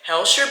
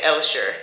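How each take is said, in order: First: The name begins with an H sound. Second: The name begins without an H sound.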